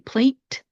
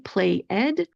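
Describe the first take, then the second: First: The ending is a forceful T sound. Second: The ending is a separate extra syllable. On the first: "We're not going to say plate" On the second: "we're not going to say play ed"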